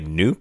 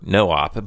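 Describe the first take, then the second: First: The word is said as one syllable. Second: The word is said as two syllables. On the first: The speaker calls it wrong. "I just thought it was kind of fun to say Noop" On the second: The speaker calls it right. "It's actually a term called NoOp, which is short for No Operation"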